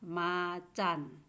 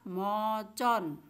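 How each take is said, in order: First: The vowels sound like 'a'. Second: The vowels sound like 'o'. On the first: The speaker calls it right. "tapi ini dibaca macan" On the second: The speaker calls it wrong. "bukan dibaca mocon"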